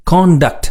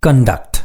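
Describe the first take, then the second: First: contact with the weight on the first syllable, higher; teacher modelling contact as a noun, first syllable stressed. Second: conduct with the weight on the second syllable; teacher modelling conduct as a verb, second syllable stressed. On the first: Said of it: "contact என்று உச்சரிக்க வேண்டும்". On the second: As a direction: lean on the end of conduct for the verb. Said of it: "கவனியுங்கள்". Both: Shown as a demonstration.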